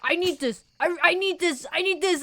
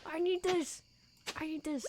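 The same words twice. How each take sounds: First: Higher, pleading repeated need; imitating desperate begging; mock desperation. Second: Quiet mock desperation. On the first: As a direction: beg for it like it's everything. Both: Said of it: "that kind of desperation".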